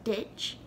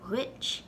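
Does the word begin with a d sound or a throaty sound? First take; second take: d sound; throaty. First: The word begins with a plain d sound. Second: The word begins with a gargled throat sound. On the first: "the first way I said it" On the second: "The second way I said it, sort of a gargling G sound in the back of your throat"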